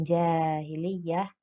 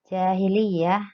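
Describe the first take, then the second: First: "jahiliyah" said slowly with the first a held long; "jahiliyah" with a clearly lengthened first a; read long. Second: Said in the usual way. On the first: Shown as a demonstration. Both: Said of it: "dibaca panjang".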